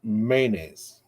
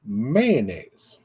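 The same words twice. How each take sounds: First: "mayonnaise" said slowly as MAY-naise with a long A; southern mayonnaise. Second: "mayonnaise" squeezed to two syllables, MAN-aise; northern mayonnaise. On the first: Vlogger giving the southern way, slow MAY-naise. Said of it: "Down in the South". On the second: Vlogger showing the northern clip, MAN-aise. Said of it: "we say". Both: Shown as a demonstration.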